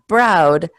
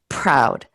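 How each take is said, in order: First: The p is said without a puff of air. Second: The p is said with a puff of air. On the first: The speaker calls it wrong. "So not proud" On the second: The speaker calls it right. "p with the puff of air there"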